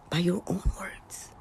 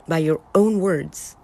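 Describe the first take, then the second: First: Whispered ominous echo; soft whispered "By your own words.". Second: Said in the usual way. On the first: Shown as a demonstration. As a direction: breathe it like a warning. Whispered repeat of warning.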